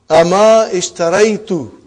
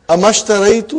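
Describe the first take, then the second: First: The initial vowel of ishtaraitu is pronounced separately. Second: The initial vowel is dropped and ma links on.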